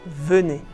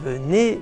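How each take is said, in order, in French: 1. L'accent tombe sur la première syllabe. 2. L'accent tombe sur la dernière syllabe. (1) "mais vous dites venez" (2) "Vous ne dites pas venez"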